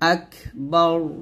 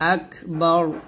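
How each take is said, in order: The two takes are said the same way.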